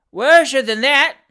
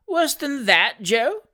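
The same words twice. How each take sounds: First: Slow, very loud, high roar. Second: Put-on high old lady's appalled echo; shocked question. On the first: Fat boy correcting his deaf mistress, roaring slowly. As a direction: bellow it slowly for a deaf listener. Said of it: "roared the fat boy". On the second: Old lady horrified at Joe's news, shocked question. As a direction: repeat it in scandalised disbelief. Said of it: "who had thought this the extreme limit of human atrocity". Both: A narrator's reading.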